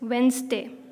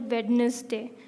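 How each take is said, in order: First: The middle D sound is silent. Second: The middle D sound is pronounced. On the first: The speaker calls it right. "It's Wednesday" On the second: The speaker calls it wrong. "you don't say out loud the D in between. You don't call it Wednesday"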